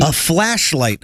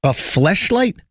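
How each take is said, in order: First: "flashlight" said slowly with a clear a vowel; correct pronunciation. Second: "fleshlight" echoed back with a puzzled e vowel; repeating the word. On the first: Correcting his friend's word, slow "flashlight". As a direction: stretch out "flashlight", flat a, correcting. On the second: Checking the friend's word, "fleshlight" said questioningly. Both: Shown as a demonstration.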